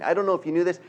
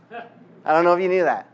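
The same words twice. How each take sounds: First: Said in the usual way. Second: Louder, laughing through the repeated aside; teasing laugh. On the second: Real, not acted. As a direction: tease the congregation with a chuckle.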